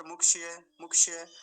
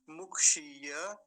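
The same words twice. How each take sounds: First: मुक्षीय rushed as muk-shi-ye; hasty slip. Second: मुक्षीय slow and loud, shee held; long ī, full ya. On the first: Teacher showing how it often comes out, hasty short i. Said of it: "ऐसे जल्दी से ही निकल के आता है". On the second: Teacher correcting the hasty version, long ī. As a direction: stretch मुक्षीय and finish on ya. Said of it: "उस पर आकर ठीक से अंत करना चाहिए". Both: Shown as a demonstration.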